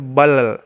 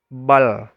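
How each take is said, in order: First: The final L ends with an echoing bounce. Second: The final L ends cleanly without a bounce. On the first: The speaker calls it wrong. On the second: The speaker calls it right.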